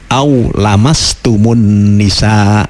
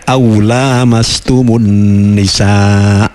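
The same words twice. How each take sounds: First: The vowel after the l is short. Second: The vowel after the l is long. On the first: It is only a touch. "tapi dibaca" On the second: Both people touch each other. "tidak dibaca lamnya panjang"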